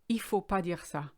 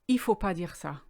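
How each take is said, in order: First: The 'ne' is dropped, said fast and flowing. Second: The 'ne' is dropped, said fast and flowing.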